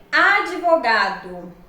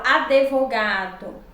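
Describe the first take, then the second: First: "advogado" slowly as a-di-vo-ga-do, no e after d; correct pronunciation. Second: "advogado" with an added e: a-de-vo-ga-do; wrong pronunciation. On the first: Teacher showing the proper form, careful slow "advogado". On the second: Teacher quoting what many say, "advogado" as adevogado. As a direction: put a clear "de" into "advogado". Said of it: "Muitos falam advogado". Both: Shown as a demonstration.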